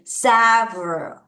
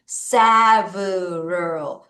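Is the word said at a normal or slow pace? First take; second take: normal; slow. First: The word is said at normal speed. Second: The word is said slowly.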